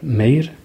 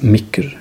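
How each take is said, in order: First: The word ends with a plain vowel and r. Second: The word ends with a hardened k before r. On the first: "schreiben wir «M-E-I-R», «Meir»" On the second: "es gibt Leute, die das «Micker» aussprechen"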